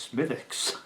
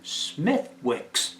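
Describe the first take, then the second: First: The W in the middle is silent. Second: The W in the middle is pronounced. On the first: The speaker calls it right. "She said the W is silent" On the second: The speaker calls it wrong. "Oh, no, no"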